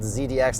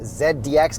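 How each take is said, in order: First: The letter Z has its American pronunciation. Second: The letter Z has a non-American pronunciation. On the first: The speaker calls it right. "we're going to call it Z D X" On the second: The speaker calls it wrong. "not Z D X"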